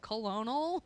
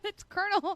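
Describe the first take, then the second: First: It is sounded out as spelled, col-o-nel. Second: It is said as one would say kernel. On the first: A child is reading the word from its spelling. The speaker calls it wrong. "she's like Colonel" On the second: This is how the word is normally said. The speaker calls it right. "no, it's Colonel. There's no R"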